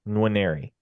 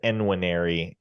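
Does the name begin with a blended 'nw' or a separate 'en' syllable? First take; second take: blended; separate. First: The first N blends lightly into the 'w'. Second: The first N is a separate 'en' syllable. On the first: The speaker calls it right. "you don't super emphasize the first N, but you also don't ignore it" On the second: The speaker calls it wrong. "some have said Enwinary, and like there's there's no logical reason it would be pronounced that way"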